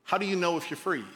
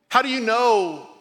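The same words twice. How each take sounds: First: Said in the usual way. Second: "How" said louder, higher and slow; emphatic repeat. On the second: Shown as a demonstration. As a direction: repeat the question with force on "How". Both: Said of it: "here's the question I wanna land the plane with".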